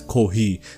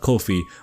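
First: The second syllable begins with an h sound. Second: The second syllable begins with an f sound. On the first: The speaker calls it wrong. "I've been pronouncing Ko-fi wrong all this time. I've been pronouncing it as Ko-hi" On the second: The speaker calls it right. "not Ko-fi"

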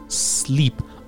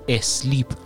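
First: The word starts directly with the s sound. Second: An extra vowel is added before the s. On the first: The speaker calls it right. "با صدای س شروع میشه" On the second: The speaker calls it wrong. "اولش رو یه ا میذارن میگن اسلیپ"

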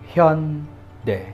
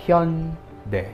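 First: The name is said with native Korean sounds. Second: The same.

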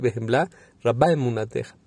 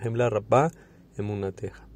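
First: The pause comes after 'bechemla'. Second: The pause comes after 'rabba'. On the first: The speaker calls it right. "hay que tener cuidado y hacer una coma, rabba emunateja, y se tiene que decir así" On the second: The speaker calls it wrong. "Todos nosotros decimos así el Modani"

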